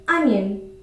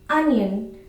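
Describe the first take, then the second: Both takes have the same delivery.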